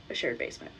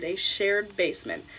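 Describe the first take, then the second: First: Quiet recap. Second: Said in the usual way. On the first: Shown as a demonstration. Recapping the layout for viewers, low and soft. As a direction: repeat "a shared basement" low and soft. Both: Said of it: "So, five apartments, a shared basement".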